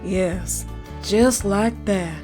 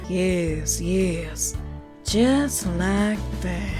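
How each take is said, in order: First: It is said in a normal voice. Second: It is said in a creepy voice.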